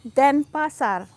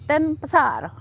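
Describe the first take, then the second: First: The emphasis follows natural Indonesian pronunciation. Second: The emphasis is placed the way English speakers would. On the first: The speaker calls it right. "So you say Denpasar" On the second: The speaker calls it wrong. "You don't say Denpasar"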